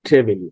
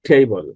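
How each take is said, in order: First: The second syllable has a full 'ee' vowel. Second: The second syllable has a reduced schwa vowel. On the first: The speaker calls it wrong. "Not টেবিল" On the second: The speaker calls it right. "এখানে সরেওয়া এর মতো উচ্চারণ হয়েছে।"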